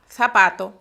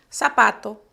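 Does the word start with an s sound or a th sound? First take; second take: th sound; s sound. First: The z sounds like th, tongue between teeth. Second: The z sounds like an s. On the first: "España" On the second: "La Z en América"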